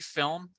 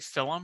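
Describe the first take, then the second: First: It is said with no vowel between L and M. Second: An extra vowel is added between L and M. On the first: The speaker calls it right. "people who can't say film" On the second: The speaker calls it wrong. "adding a vowel sound in between the L and the M"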